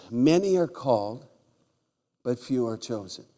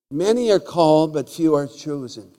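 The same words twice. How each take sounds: First: Said in the usual way. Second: Loud proclaiming delivery; loud preacher proclaiming the verse; preached loud. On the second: Shown as a demonstration. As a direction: proclaim the verse to the back row. Repeats scripture with force.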